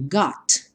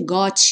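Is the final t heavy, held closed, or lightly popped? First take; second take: lightly popped; heavy. First: The final t has a small light pop. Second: The final t is strongly released with weight. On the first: The speaker calls it right. "Você até pode dar um estalinho" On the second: The speaker calls it wrong. "mas nada de got, got, né? Ela não tem esse peso como nós damos em português"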